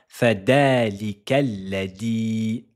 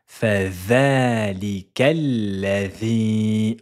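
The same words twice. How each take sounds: First: The letter is said with a hard 'd' sound. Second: The letter is said with a soft 'th' sound. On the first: The speaker calls it wrong. "Ne dites pas ... avec une lettre del avec un D" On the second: The speaker calls it right. "c'est la lettre vel"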